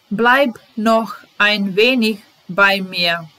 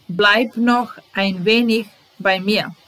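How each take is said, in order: First: Slow, careful teacher reading; deliberate classroom pace; slow model reading. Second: Said in the usual way. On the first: Shown as a demonstration. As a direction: spell each word out slowly for the learner. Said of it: "teacher models phrase slowly". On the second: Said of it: "teacher repeats phrase".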